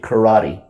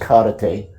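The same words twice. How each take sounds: First: The word has an American-style pronunciation. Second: The word has a Japanese-style pronunciation. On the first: "the Americans pronounce it karate" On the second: "Okinawan Te became known as Karate"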